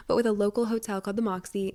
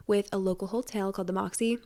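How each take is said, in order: First: Said in the usual way. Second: Slips into an odd accent on the Moxie; a stray, unplanned accent creeping into the Moxie line; accidental accent. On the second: Real, not acted. Podcaster plugging a hotel giveaway, drifting into an accent. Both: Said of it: "I just had an accent".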